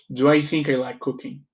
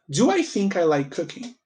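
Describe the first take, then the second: First: The voice falls at the end like a statement. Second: The voice rises at the end like a question.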